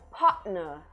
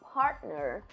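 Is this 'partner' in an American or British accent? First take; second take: British; American. First: It is said with a glottal British T. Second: It is said with an American T sound. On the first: "no inglês britânico pode soar como partner" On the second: "o americano falaria como partner"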